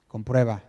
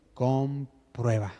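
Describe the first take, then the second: First: Said in the usual way. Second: Comprueba stretched very slowly and weighted; drawn-out emphatic Comprueba; stressed word. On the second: Shown as a demonstration. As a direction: hold and press Comprueba like a command. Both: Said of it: "aquí remarco la palabra".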